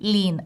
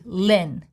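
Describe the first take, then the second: First: The vowel is a long E, lips spread. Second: The vowel is a short neutral sound. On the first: The speaker calls it wrong. "I don't say Lin" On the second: The speaker calls it right. "Goblin has neutral short E"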